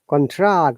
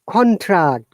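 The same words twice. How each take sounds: First: The pitch is higher on the second syllable. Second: The pitch is higher on the first syllable. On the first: It is used as a verb. "lower intonation to higher intonation" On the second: It is used as a noun. "going down, higher intonation to lower intonation. Noun"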